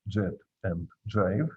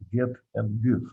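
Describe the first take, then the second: First: The words start with a j sound. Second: The words start with a hard g sound. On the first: This is what the spelling rules would predict. "If we follow the rules of the English language, they should be read as" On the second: This keeps the old borrowed pronunciation. "their modern pronunciation and spelling reflect the way they had been pronounced"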